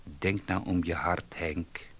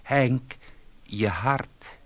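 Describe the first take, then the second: First: Soft, sorrowful, to nobody; wife alone after the call, softly sorrowful; sad. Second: Wife calls urgently to her husband on the phone. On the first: A narrator's reading. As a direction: say it sadly into the dead line. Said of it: "zei ze treurig tegen niemand". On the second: Acted.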